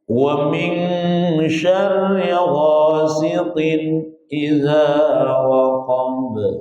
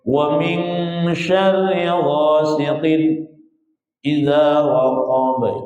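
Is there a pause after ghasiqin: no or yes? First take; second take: no; yes. First: Ghasiqin runs into idza without a pause. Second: There is a pause between ghasiqin and idza. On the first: The speaker calls it right. "Mana yang benar?" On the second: The speaker calls it wrong. "Itu jadi sakta, salah juga"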